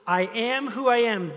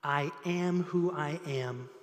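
First: Louder, higher, proclaiming; emphatic. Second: Low, slow and hushed, weighty; reverent. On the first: Pastor rereads God's answer, louder and proclaiming. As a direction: announce it with force. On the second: Pastor reads God's answer to Moses, low and slow. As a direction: let each word land slowly. God's name, first reading. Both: Acted.

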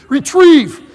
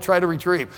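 First: Loud, high shout at the dog; yelled command. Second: Said in the usual way. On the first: Retold or imitated. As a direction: yell it as an order to your dog. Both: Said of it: "he wouldn't retrieve it till I yelled it".

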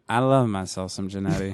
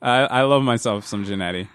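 First: Tipsy and quiet, low. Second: A little tipsy from wine. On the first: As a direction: wine kicking in, a bit slurred. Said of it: "that means that I'm getting drunk". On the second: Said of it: "This red wine's really hitting me". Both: Real, not acted.

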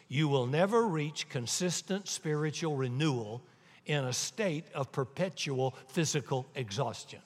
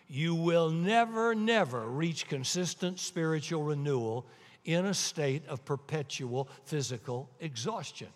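First: Said in the usual way. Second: "never, never" stretched out and stressed; emphatic repeat. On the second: Real, not acted. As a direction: lean on a long first "never", then hit "never" again.

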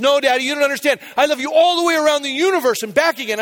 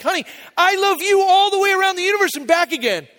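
First: Higher-pitched imitation of a child one-upping; emphatic retold child's declaration; insistent little girl. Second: Very high, sustained sing-out of fatherly love; hammed-up doting daddy voice; gushing dad. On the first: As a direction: push it higher, eager to out-love Daddy. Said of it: "She goes". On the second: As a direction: top the child with an over-the-top high gush. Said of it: "I was like".

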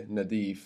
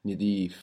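First: "nadif" with an open A in the first syllable; A vowel. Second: "nidif" with a short I in the first syllable; Egyptian vowel. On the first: Teacher showing Standard Arabic, "nadif" with open A. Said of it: "With an A there". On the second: Teacher showing Egyptian Arabic, "nidif" with short I. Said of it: "Egyptian Arabic". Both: Shown as a demonstration.

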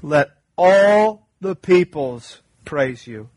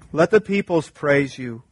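First: "all" leaned on, louder and slow; stress on ALL. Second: Said in the usual way. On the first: Shown as a demonstration. Pastor reads the psalm to the church, stressing "all". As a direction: draw out "all" in "Let all the peoples praise you". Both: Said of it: "read it with a targeted emphasis".

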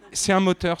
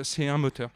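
First: Louder, with a laugh on it; delighted laughing exclamation; laughing emphasis. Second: Said in the usual way. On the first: Real, not acted. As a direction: burst out with it, amused and delighted.

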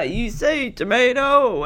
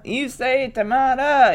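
First: "tomato" said as tuh-MAY-doh. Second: "tomato" said as tuh-MAH-tuh. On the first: Entertaining the guests, "tomato" said with AY. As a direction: give "tomato" a long AY in the middle. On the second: Entertaining the groom side, "tomato" said with AH. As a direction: give "tomato" a broad AH in the middle. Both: Retold or imitated. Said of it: "entertaining the guests by saying".

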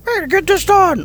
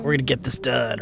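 First: Much higher, squeaky goofy cheer; comic relief voice. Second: Lower, softer, flat hero line; a calm stoic soldier. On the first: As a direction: ham up the annoying sidekick. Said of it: "it's a comic relief voice". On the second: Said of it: "your stoic character". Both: Retold or imitated.

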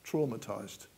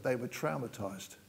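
First: Traumatized with TRAW, as in saw; British traumatized. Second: Traumatized with TROW, as in cow; American traumatized. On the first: Preacher giving his own English way of saying the word. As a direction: say Traumatized with an aw vowel. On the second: Preacher giving the American way of saying the word. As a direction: say traumatized with an ow vowel. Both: Shown as a demonstration. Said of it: "you know what I mean".

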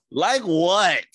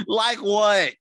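First: High, loud, disbelieving like what; incredulous. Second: High, loud mock disbelief, laughing; incredulous again. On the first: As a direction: ask it in loud mock disbelief. Mocking question, laughing banter. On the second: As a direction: repeat it louder in disbelief. Repeated with laugh, higher. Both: Real, not acted.

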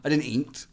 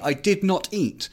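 First: Said in the usual way. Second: "I did not eat" with "not" spelled out and hit hard; stress on not. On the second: Shown as a demonstration. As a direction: separate "did" and "not", punch "not". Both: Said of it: "when I say I didn't eat".

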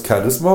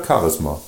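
First: „Charisma“ as CHA-risma; first-syllable stress. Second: „Charisma“ as Cha-RIS-ma; second-syllable stress. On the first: („Charisma“ auf der ersten Silbe betont) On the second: („Charisma“ auf der zweiten Silbe betont) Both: Shown as a demonstration. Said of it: "da wird die zweite Silbe betont".

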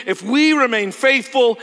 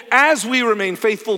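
First: "we" punched high and loud; stress on "we". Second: "as" hit loud and high at the start; stress on "as". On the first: Preacher urges the congregation to stay faithful, stress on "we". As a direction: lean hard on "we" in a forceful preaching voice. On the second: Preacher rewords his condition to the church, stress on "as". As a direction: punch "as" to firm up the condition. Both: Real, not acted. Rephrases if to as.

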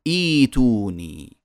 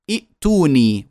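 First: إيتوني opening on a long smooth i; hamza as long i. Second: ائتوني with a glottal catch after i; two hamzas sounded. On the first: Teacher showing what we say, long i replacing hamza. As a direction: stretch first i of إيتوني without a catch. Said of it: "وإنما نقول". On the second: Teacher showing what we don't say, second hamza sounded. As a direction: cut the first vowel of ائتوني with hamza. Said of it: "لا نقول". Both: Shown as a demonstration.

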